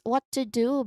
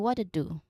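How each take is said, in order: First: The word 'what' ends in a clear T. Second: The word 'what' ends in a D-like sound.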